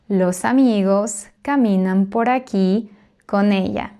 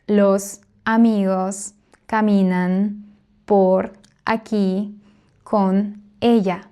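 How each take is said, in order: First: The words flow together, linked without breaks. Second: Each word is said separately, sounding choppy. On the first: The speaker calls it right. "it sounds much more fluent when we link everything naturally" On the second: The speaker calls it wrong. "we don't separate each word. ... That sounds choppy"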